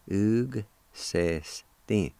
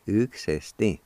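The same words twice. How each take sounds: First: Slow "Ug, se, stin" with gaps between syllables. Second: "Ug se stin" run together as one word; joined-up pronunciation. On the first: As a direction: teach "Ug se stin" one drawn-out piece at a time. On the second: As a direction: say "Ug se stin" smoothly without gaps. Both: Shown as a demonstration. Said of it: "pronounce the G sound with the U like this".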